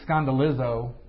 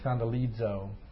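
First: The Z is a plain buzzing Z sound. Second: The Z is said as DZ, with a D. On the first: The speaker calls it wrong. "So you don't say skandalizo" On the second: The speaker calls it right. "it's skandalizo or skandalizo. Like there's a little D in front of it"

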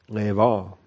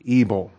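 First: The name is said in a Hebrew-style way. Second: The name is said in an anglicized way. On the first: The speaker calls it right. "If you want to be a Hebrew pronouncing purist, do that" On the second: The speaker calls it wrong. "that's a terrible pronunciation"

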